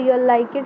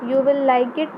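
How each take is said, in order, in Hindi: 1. 'You' और 'will' मिलकर एक सिलेबल बन जाते हैं। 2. 'You' और 'will' अलग-अलग शब्दों की तरह बोले जाते हैं।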